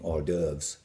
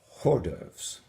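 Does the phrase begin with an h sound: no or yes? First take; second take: no; yes. First: The phrase begins without an h sound. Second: The phrase begins with an h sound. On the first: The speaker calls it right. "you would be consuming hors d'oeuvres" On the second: The speaker calls it wrong. "not hors d'oeuvres"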